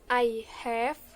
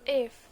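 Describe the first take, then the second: First: Both words are said in full. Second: The words are merged into one short form. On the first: "I have become"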